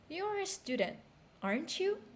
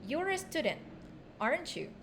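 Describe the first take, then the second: First: The voice rises at the end of the tag. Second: The voice falls at the end of the tag. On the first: "How do we use a rising intonation?" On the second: "when do we use the falling intonation?"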